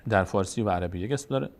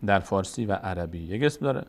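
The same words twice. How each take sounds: The two takes are said the same way.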